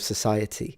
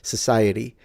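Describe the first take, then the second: First: The T is a clear T. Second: The T sounds like a soft D. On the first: "instead of" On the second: "Americans do it"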